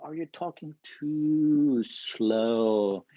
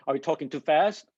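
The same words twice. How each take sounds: First: Very slow, drawn-out words; too slow. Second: Said in the usual way. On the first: Shown as a demonstration. Teacher showing students a sleep-inducing pace, far too slow. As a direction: stretch out TOO SLOW as if to send them to sleep. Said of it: "that makes you fall asleep". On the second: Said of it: "or are you talking too slow".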